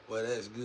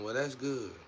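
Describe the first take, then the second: First: It sounds grudging and resentful. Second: It sounds warm and sincerely pleased. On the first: The speaker is jealous of the other person. "in such a way where people be like, they were hating" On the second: The speaker is genuinely happy for the other person. "They didn't say it in a bad way though"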